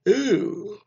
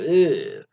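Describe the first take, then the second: First: It is said through a yawn. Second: It is said clearly, without a yawn.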